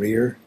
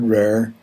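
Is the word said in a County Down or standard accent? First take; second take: standard; County Down. First: The vowel is close, like in 'ear'. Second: The vowel is open, like in 'air'.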